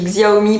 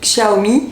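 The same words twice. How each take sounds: First: The name is said the familiar French-like way. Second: The name is said the Chinese-like original way. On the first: This is the form listeners will recognize. "je dis Xiaomi pour que vous puissiez comprendre" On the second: This is how the name is really said. "en plus ça se dit Xiaomi"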